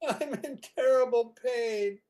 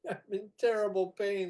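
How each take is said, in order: First: It is said at a louder volume. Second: It is said at a quieter volume.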